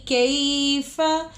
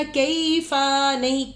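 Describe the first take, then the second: First: कैफ़ा with a short clipped fa, kaf long; correct short kaifa. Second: कैफ़ा with the fa drawn out long; wrong long kaifa. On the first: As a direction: keep the fa of कैफ़ा short, no pull. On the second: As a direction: stretch the fa of कैफ़ा as the mistake. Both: Shown as a demonstration. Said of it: "कैफ़ा को लंबा नहीं करना".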